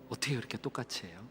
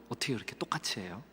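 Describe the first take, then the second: The two takes are said the same way.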